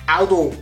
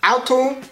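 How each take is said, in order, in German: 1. Es wird mit weichem D gesprochen. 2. Es wird mit hartem T gesprochen.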